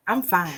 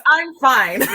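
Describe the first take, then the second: First: Slightly raised, louder in-character blurt; Mo's voice. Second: High, loud replay of the character's line; Mo's voice. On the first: Acted. Player introducing themselves slips into their character, lightly voiced. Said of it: "You did say it in Mo's voice". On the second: Shown as a demonstration. Player shows co-players the slip into character, loud demo. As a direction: blurt it out much louder and higher. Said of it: "I said that in Mo's voice".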